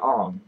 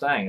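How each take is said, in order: First: The vowel sounds like the 'o' in 'song'. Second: The vowel sounds like the 'a' in 'bang'. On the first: The speaker calls it right. "It's really Ong" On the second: The speaker calls it wrong. "Aang is not pronounced Aang"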